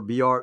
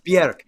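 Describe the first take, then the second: First: The vowel sounds like 'or'. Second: The vowel sounds like 'er'. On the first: The speaker calls it wrong. "Everybody says Bjork" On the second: The speaker calls it right. "It's [name]"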